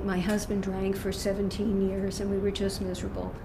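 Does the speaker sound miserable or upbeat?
miserable. The voice sounds sad and heavy, still suffering. The speaker is still stuck in the problem. The speaker calls it wrong.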